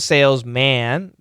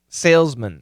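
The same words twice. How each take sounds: First: The last syllable has a full short a vowel. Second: The last syllable has a reduced schwa vowel. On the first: It stresses that the person is a man. "if we want to emphasize man, not a woman" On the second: It names the job in general, for anyone. "the pronunciation is actually salesman, salesman. It's going to be M schwa N"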